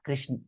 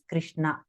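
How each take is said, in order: First: The name is pronounced in a simplified form. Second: The name is pronounced in its full original form. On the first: This is a corrupted, colloquial form of the name. "not Krishna" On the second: This is the original form of the name. "the actual Bhagwan's name is Krishna"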